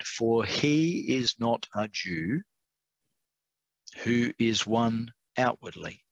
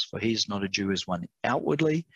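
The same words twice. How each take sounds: First: Slow, deliberate scripture reading with pauses; measured, careful reading at a slow pace. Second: Said in the usual way. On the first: Real, not acted. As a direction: read it out slowly, spacing the phrases. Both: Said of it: "I have to read this slowly".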